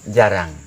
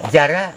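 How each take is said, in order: First: The word ends with a final ng sound. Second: The word ends without a final ng sound. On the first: This is how Manggarai people say it. "orang Manggarai bilang" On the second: This is how Bima people say it. "Kalau orang Bima bilang"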